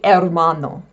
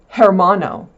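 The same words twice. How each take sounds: First: The word begins with no h sound. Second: The word begins with an audible h sound. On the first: The speaker calls it right. "Its H is silent" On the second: The speaker calls it wrong. "You'll know not to say hermano"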